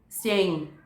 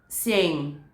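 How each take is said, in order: First: The two vowels merge into one syllable. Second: The two vowels merge into one syllable.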